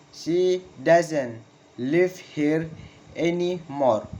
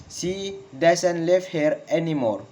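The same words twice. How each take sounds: First: Very slow, split into pieces, "anymore" falling; slow falling intonation. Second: Connected sentence, falling on "anymore"; falling intonation. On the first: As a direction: dictate slowly with pauses between words. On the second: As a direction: model the statement in one go, "anymore" dropping. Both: Shown as a demonstration. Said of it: "Falling intonation in statement".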